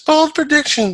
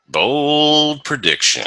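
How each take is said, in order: First: It is said in a high voice. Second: It is said in a deep baritone voice.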